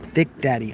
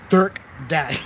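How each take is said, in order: First: The first word is said plainly as 'thick'. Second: The first word is said as 'dirk'. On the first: The speaker calls it wrong. "you don't even want to say thick" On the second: The speaker calls it right. "That's how you say it"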